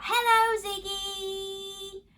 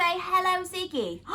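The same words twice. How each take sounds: First: Shout it out. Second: Said in the usual way. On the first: Shown as a demonstration. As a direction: call out Hello, Ziggy across the room. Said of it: "can you shout". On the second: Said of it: "Did you say".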